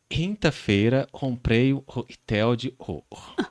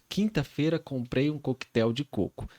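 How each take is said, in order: First: The K sounds are distorted or replaced. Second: The K sounds are pronounced clearly and normally. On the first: This is how it was said with a childhood speech difficulty. The speaker calls it wrong. "Eu falava assim" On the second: This is how it is normally said. The speaker calls it right. "Tô falando corretamente"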